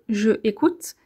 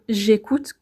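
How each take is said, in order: First: Said with a pause between je and écoute. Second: Said as one joined word without a break. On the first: The speaker calls it wrong. "qui nous demande de faire une pause entre je et écoute" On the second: The speaker calls it right. "clairement plus facile à dire et plus joli à entendre"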